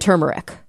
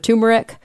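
First: The first syllable sounds like 'tur', with r. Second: The first syllable sounds like 'too', without r.

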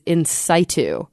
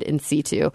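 First: It is said the alternative American way. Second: It is said the usual European way. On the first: "the American pronunciation of in situ is" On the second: "most European pronunciations"

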